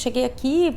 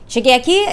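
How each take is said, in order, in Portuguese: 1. Fala num tom bobo e meio engraçadinho. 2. Fala num tom irritado e com raiva. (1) "eu vou atuar ela com um ar mais trouxa" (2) "eu poderia ter falado essa piada com raiva"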